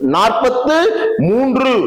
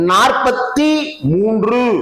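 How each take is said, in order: First: The first word ends with a 'thu' sound. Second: The first word ends with a 'thi' sound. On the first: The speaker calls it right. "அப்படின்னு எழுதுவதற்கு பதிலாக" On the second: The speaker calls it wrong. "அப்படின்னு எழுதுவதும் பிழை"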